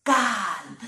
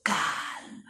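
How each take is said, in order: First: Louder, firm calm. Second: Whispered calm; soft calm. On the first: Preacher repeating calm again, louder and firm. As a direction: set the word calm down firmly. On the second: Preacher repeating calm softly, whispered. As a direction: breathe the word calm. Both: Shown as a demonstration. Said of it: "Repeat that word".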